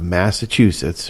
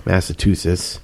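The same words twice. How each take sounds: First: Said in the usual way. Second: "Massachusetts" said as "Massa-too-sits", the ch turned to a t; local pronunciation. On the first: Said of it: "or as they say down here". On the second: Acted. Host mimicking how locals down here say it, "Massachusetts" as "Massa-too-sits". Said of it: "as they say down here".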